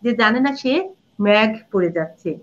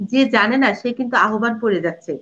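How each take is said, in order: First: ম্যাঘ with an open "myagh" vowel; teacher showing the wrong form ম্যাঘ; wrong pronunciation demo. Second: আহ্বান said as the correct standard form; teacher demonstrating the proper আহ্বান; correct pronunciation demo. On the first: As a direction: deliberately mispronounce মেঘ as ম্যাঘ. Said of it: "এটা হবে মেঘ". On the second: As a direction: carefully say আহ্বান the right way. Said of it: "আহ্বানই শুদ্ধ". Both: Shown as a demonstration.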